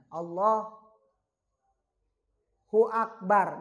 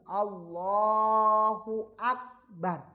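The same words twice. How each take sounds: First: There is a short pause before Akbar. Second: It is said in one connected phrase.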